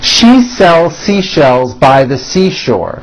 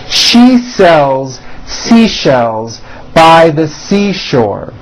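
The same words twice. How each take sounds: First: It is said at a faster pace. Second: It is said at a slower pace.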